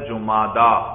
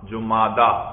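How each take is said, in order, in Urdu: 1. لفظ لمبی 'aa' کی آواز پر ختم ہوتا ہے۔ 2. لفظ لمبی 'aa' کی آواز پر ختم ہوتا ہے۔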